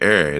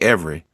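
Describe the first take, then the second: First: The word is shortened to one syllable like 'air'. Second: The word is said fully with all its syllables. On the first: This is a regional Virginia way of saying it. "I say air. That's a Virginia thing" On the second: This is how people elsewhere say it. "I don't say every"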